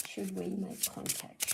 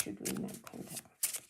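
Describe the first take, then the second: First: Said in the usual way. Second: Hushed, breathy asking; a private whispered question over the cards. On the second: Real, not acted.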